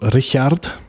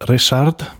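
First: The name is pronounced the German way. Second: The name is pronounced the Polish way. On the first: This is the name as used after moving. "when we moved to Germany, so it changed to Richard" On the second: This is the name as given at birth. "I'm born as Richard, because I'm born in Poland"

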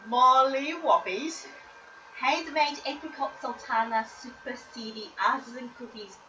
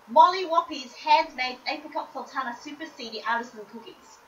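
First: The phrase is said slowly, with calm pitch. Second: The phrase is said quickly, with lively pitch.

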